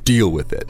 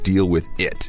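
First: The word deal is strongly emphasized. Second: The word deal gets no special emphasis. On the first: The speaker calls it right. "we really want to emphasize the deal" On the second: The speaker calls it wrong. "So you don't want to say"

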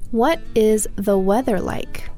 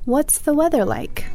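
First: What and is are said as two full words. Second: What and is merge into one syllable ending in s.

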